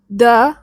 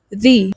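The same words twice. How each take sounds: First: "the" as "thuh"; consonant form. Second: "the" as "thee"; vowel form. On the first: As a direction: say "the" with a short, neutral vowel. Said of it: "You pronounce it in two different ways". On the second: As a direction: say "the" with a long ee. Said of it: "in front of a vowel, we pronounce it as". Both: Shown as a demonstration.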